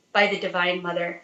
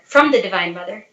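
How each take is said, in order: First: Said in the usual way. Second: "from" stressed with a slight rise; corrected preposition. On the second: Real, not acted. Correcting "by" to "from" before the congregation, "from" stressed. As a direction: lean on "from" to fix the slip.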